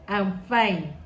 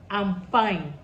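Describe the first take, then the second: The two takes are said the same way.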